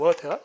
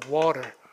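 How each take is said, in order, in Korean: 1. t는 딱딱하게 내고 r은 발음하지 않습니다. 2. t는 살짝 굴리고 r은 소리 냅니다. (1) "영국 사람들은 T 발음 되게 좋아요. 근데 오히려 R 발음 안 해요" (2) "미국식이 강세가 이렇게 앞에 오면요. 모음사의 t는 약간 굴려"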